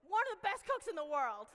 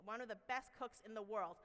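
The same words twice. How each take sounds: First: Much higher and louder, hyped up; big proud announcement. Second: Said in the usual way. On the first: Shown as a demonstration. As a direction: sell it like an announcer introducing a champion.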